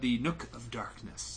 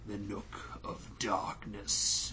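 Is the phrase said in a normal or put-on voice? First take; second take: normal; put-on. First: It is said in an ordinary speaking voice. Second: It is said in a dramatic put-on voice.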